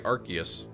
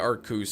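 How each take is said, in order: First: The name is said in three syllables. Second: The name is said in two syllables. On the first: The speaker calls it right. "I say Arceus" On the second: The speaker calls it wrong. "I don't say Arcus"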